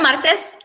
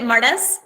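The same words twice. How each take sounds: First: The name is pronounced with a Spanish accent. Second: The name is pronounced with an English accent. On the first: This is how she herself says her name. "It's [name]" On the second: This is how her husband says the name. "my husband pronounces it Martes"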